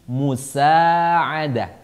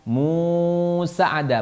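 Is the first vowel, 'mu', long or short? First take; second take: short; long. First: The first vowel 'mu' is kept short. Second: The first vowel 'mu' is drawn out long. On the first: The speaker calls it right. "Munya pendek, ... tapi musa'adah" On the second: The speaker calls it wrong. "jadi bukan musa'adah, bukan"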